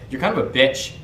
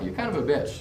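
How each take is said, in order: First: It is said with an aggressive, hostile tone. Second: It is said with a smirking, playful tone. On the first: The remark is a real attack. The speaker calls it wrong. "you can't make it seem like there's any aggression in your voice" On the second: The remark is teasing and shows appreciation. The speaker calls it right. "It's got to be like a, like a smirk"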